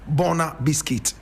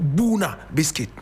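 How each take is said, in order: First: The first vowel of the name sounds like 'oh'. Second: The first vowel of the name sounds like 'oo'. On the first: This is how locals in one country used to say it. The speaker calls it wrong. "Ghanaians used to call it Bona biscuit" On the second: This is how the town's name is properly said. The speaker calls it right. "But correct pronunciation"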